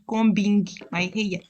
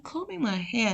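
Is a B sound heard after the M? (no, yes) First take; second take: yes; no. First: A B sound is heard after the M. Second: The M is followed directly by the vowel. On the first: The speaker calls it wrong. "not combing my hair" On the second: The speaker calls it right. "I'm combing my hair"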